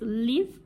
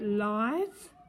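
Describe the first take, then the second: First: The vowel is a short i sound. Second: The vowel is a long i sound. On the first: "If it's live, it's a short it sound" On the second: "we pronounce it live. We've got a silent E to make it a long sound"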